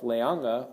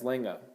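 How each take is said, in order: First: Every syllable of the word is said clearly. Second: The vowels run together into fewer syllables. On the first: "you can pronounce it as just bad as itself" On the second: "a lot of times I heard it slurred as"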